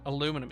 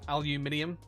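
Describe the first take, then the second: First: The word is said with four syllables, ending -num. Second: The word is said with five syllables, ending -nium. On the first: "Aluminum instead of aluminium" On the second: "instead of aluminium"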